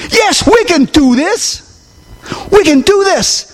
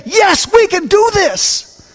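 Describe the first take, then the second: First: Emphatic refrain. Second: Rousing yes. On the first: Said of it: "preacher repeats as call". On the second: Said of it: "Christians that can say". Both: Acted.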